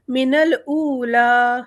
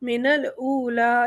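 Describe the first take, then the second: First: الاولا slow and louder, final aa drawn out; long madd at stop. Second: Said in the usual way. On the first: Shown as a demonstration. Teacher recites الاولا with a held ending. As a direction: stretch الاولا. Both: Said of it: "same رہے گا".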